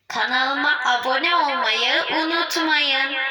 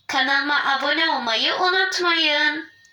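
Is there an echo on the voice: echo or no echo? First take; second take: echo; no echo. First: The voice sounds echoey and reverberant. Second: The voice sounds dry with no echo. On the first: "Bu da yankılandı sesim" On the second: "Bu Mikvol'du"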